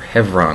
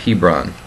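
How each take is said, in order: First: The name has its local Israeli pronunciation. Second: The name has its usual English pronunciation.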